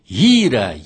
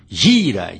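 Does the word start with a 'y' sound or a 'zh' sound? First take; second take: y sound; zh sound. First: The word starts with a y-like sound. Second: The word starts with a zh-like sound. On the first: The speaker calls it right. "Mas eu não errei, não" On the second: The speaker calls it wrong. "transforma o Y num verdadeiro G, como se fosse gira"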